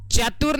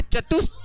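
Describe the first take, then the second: First: "चतुर" ending in an r sound; mispronunciation demo. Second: "चतुस्थ" with s in place of r, pitched high; correct pronunciation demo. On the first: Teacher warning students off a slip, "चतुर" said with r. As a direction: say "चतुर" with final r, as the mistake to avoid. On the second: Teacher correcting students' word, "चतुस्थ" said high with s. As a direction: model "चतुस्थ" high, ending on the s cluster. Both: Shown as a demonstration. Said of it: "चतुर नहीं बोलना है".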